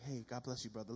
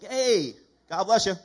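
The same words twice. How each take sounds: First: Softly, almost a whisper; quiet churchy whisper; whispered greeting. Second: Loud, hammed-up churchy greeting; preacher mocks an over-eager greeting, booming; mock loud blessing. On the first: Retold or imitated. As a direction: hush it like a Sunday blessing. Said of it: "whisper on". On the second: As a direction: boom it like an over-eager believer.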